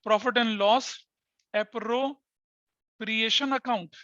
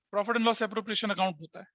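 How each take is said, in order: First: Very slowly, stretching appropriation; slow, drawn-out term. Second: Said in the usual way. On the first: Shown as a demonstration. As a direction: spell the name out slowly for the class. Teacher introduces the new term.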